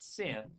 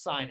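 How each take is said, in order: First: It rhymes with 'pin', with a short vowel. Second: It rhymes with 'line', with an 'eye' vowel. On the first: The speaker calls it wrong. "It's not sin" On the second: The speaker calls it right. "it's sign"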